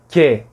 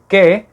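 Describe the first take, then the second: First: The k sound is fronted with a slight hiss. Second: The k sound is made far back, without hiss. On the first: "só que com a língua para frente" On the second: "em vez de dizer que"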